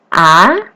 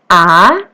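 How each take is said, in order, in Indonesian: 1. Nadanya naik ke atas. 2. Nadanya naik ke atas.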